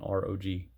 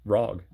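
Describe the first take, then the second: First: It is spelled out as three letters. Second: It is said as one single syllable.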